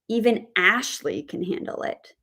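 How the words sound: The stress is on the word Ashley. The focus is on this particular person managing it. "if we put the word stress on the name Ashley"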